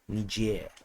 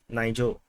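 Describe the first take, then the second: First: The name is said in a French way. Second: The name is said in an English way. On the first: The speaker calls it right. "the correct pronunciation is actually more Frenchy" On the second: The speaker calls it wrong. "previously, I called it"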